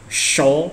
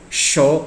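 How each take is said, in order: First: The first consonant is a hushing sh sound. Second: The first consonant is a hushing sh sound.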